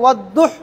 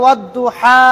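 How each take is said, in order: First: The final vowel is cut off short. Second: The final vowel is held long. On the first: The speaker calls it wrong. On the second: The speaker calls it right.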